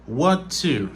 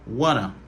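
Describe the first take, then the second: First: Both words are pronounced fully and separately. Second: The words are reduced to wanna. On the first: This is standard careful speech. "Ça, c'est la prononciation normale" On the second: This is casual speech. "La réduction, c'est wanna"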